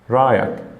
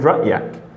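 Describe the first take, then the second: First: There is no glottal stop in the middle. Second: A glottal stop is in the middle.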